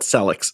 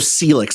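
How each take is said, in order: First: The name does not rhyme with Felix. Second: The name rhymes with Felix. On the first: The speaker calls it wrong. "not Celix" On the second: The speaker calls it right. "like Felix"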